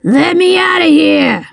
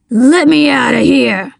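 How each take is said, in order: First: Higher, strained villain roar; trapped man's raised, angry cry. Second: Trapped man's strained demand; mildly breathless, insistent villain voice; panting demand. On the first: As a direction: roar to be let out, without full volume. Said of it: "Slate roared". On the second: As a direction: demand release with a touch of panting. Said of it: "he demanded, panting". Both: A narrator's reading.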